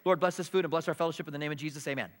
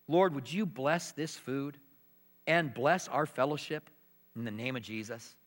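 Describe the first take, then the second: First: It is said mechanically, without feeling. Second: It is said fervently, with real feeling.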